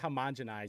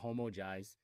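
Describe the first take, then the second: First: The word is said with all its syllables. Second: The word is said with a syllable dropped. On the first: This is the form the speaker does not use. "I don't say homogenize" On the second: This is the form the speaker actually uses. "I say homogize"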